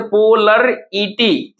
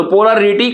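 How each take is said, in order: First: पोलर ईटी in four parts, po-lar-i-ty; syllable by syllable. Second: Said in the usual way. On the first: Shown as a demonstration. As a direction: break पोलर ईटी apart slowly. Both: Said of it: "हम लोग तोड़ते हैं".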